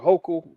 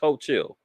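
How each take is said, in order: First: The name is said in its standard pronunciation. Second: The name is reshaped to end like 'chill'. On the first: This is how the name is normally pronounced. "I think they pronounce it Hochul" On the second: The speaker mocks the name on purpose. "I got a speech impediment, so she's Ho Chill"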